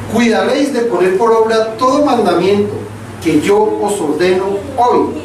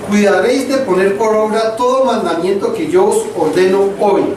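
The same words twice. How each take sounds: No difference in how they are said.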